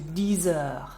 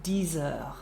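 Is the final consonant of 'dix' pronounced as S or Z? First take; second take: Z; Z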